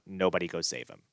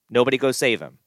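First: Said in the usual way. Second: Raised, emphatic order; stressed command, higher and louder; louder insistent repeat. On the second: Shown as a demonstration. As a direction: drive it home louder.

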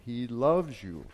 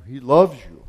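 First: Said in the usual way. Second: He "loves" you, much louder; stress on loves. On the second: Acted. Preacher to his flock, shouting "loves" with full force. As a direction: punch "loves" hard and loud.

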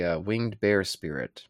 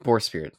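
First: "bear" said as in the animal, rhyming with "care"; "winged bear" with the vowel of "hair"; "bear" pronounced like the animal. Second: "Boar" said with the "or" of "door", not "bear"; corrected "Boar" rhyming with "more"; "Boar spirit" with a clear "or" vowel. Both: Real, not acted. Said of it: "it's winged boar spirit, not bear".

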